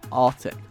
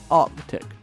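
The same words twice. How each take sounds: First: The c sound before the t is dropped. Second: The c sound before the t is pronounced. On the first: The speaker calls it wrong. "not Arctic?" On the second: The speaker calls it right. "isn't it Arctic"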